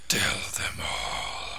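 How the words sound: It is said in a Candyman impression.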